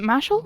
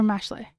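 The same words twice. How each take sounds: First: "Mashal" said MASH-ul, like muscle; rhymes with muscle. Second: "Mashley" said MASH-lay; "Mashley" in two syllables, MASH then lay; ending in -lay. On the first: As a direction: say "Mashal" with a weak second syllable, as in muscle. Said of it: "as in the word muscle". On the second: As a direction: say "Mashley" with a clear lay at the end. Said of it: "How do you say that?". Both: Shown as a demonstration.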